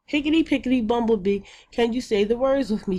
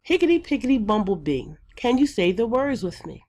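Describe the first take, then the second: First: Quick, high sing-song chant; classroom chant. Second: Quick sing-song chant of the rhyme; classroom chant. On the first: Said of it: "And then we would say". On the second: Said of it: "students will start out by saying". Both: Shown as a demonstration.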